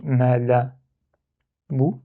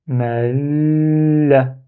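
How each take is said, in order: First: "ma la bou" with no held l; without shadda. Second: "ma la" with the l held very long; blocked lam. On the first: Teacher showing the intermediate step, "ma la bou" without doubling the l. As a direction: say "ma la bou" with a short, single l. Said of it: "où il n'y a pas shadda". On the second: Teacher demonstrating shadda, "ma la" with a long blocked l. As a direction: hold the l in "ma la" before releasing the vowel. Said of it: "je bloque". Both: Shown as a demonstration.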